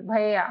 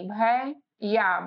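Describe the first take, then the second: First: भैया said quickly with a short falling end; quick bhaiya. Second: भैया stretched slowly, each syllable held apart; drawn-out bhaiya. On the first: Teacher showing the everyday quick भैया. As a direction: say भैया fast and clipped, the usual way. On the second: Teacher contrasting it with a slow, drawn-out भैया. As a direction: draw भैया out slowly so the middle sound is heard. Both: Shown as a demonstration. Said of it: "भैया और भैया में फर्क".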